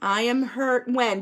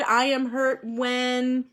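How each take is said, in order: First: Said in the usual way. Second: Slow, drawn-out sentence starter; slow prompt. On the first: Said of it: "Do you have anything else that you wanna add?". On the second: Shown as a demonstration. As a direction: stretch each word for the class. Teacher slowly repeating sentence starter.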